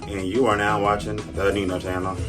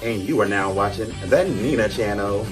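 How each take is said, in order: First: It is said with low energy. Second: It is said with more energy.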